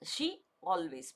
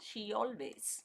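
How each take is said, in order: First: The two words are said separately, with a break. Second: The words are linked with a y sound between. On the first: The speaker calls it wrong. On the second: The speaker calls it right.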